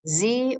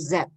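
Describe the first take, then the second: First: The letter is said as zee. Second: The letter is said as zed.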